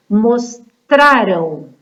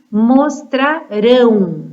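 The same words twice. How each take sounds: First: "Mostraram" very slow, stress on "-ra-", light "-ram". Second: "mostrarão" slow, with a strong nasal "-rão" at the end; slow "mostrarão", punching the last syllable "-rão"; stress on -rão. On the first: Teacher contrasting past and future for pupils, slow and deliberate. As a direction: stretch "Mostraram" out, leaning on the middle syllable. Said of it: "é diferente de mostrarão". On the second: Teacher contrasting future with past for pupils, slow and deliberate. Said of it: "O importante é vocês se atentarem à pronúncia". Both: Shown as a demonstration.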